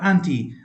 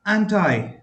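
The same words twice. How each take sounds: First: "anti" with an ee sound at the end; "anti" as an-tee. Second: "anti" rhyming its second syllable with eye; "anti" as an-tie. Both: Shown as a demonstration. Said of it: "It is also pronounced as".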